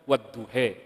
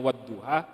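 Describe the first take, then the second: First: The final vowel is bent toward an 'e'. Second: The final vowel sounds like an open 'a'. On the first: "itu kan semuanya dibaca wadduhe" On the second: "alifnya yang belakang layyinah seperti halnya wadduha"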